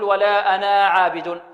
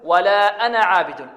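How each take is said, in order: First: The vowel after the n is long. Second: The vowel after the n is short. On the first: The speaker calls it wrong. "البعض يقرأها يقول ولا أنا عابد، هذا خطأ" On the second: The speaker calls it right. "لا ننطقها، بل نحذفها، نقول ولا أنا عابد"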